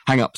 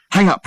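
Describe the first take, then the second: First: Said in the usual way. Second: Louder, higher command; firmer repeat. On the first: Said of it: "said Dirk". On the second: A narrator's reading. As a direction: insist the second time. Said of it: "repeated Dirk".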